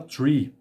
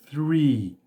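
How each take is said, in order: First: It begins with a t sound. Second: It begins with a breathy th sound. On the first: The speaker calls it wrong. "Tem gente que fala tree" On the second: The speaker calls it right. "o correto é three"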